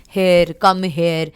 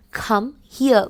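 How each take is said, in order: First: "here" said like hair, hair sound; "come here" with here as hair; wrong here. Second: "here" said like hear, hee-uh; "Come here" with here rhyming with ear; correct here. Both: Shown as a demonstration. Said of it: "We don't say here".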